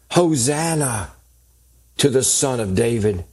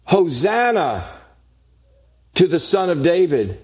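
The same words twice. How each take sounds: First: Said in the usual way. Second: Mild retold shout. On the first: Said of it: "the children cried out". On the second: Preacher quoting children shouting in the temple, mild retold shout. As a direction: call it out higher, without really shouting. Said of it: "these little children were shouting".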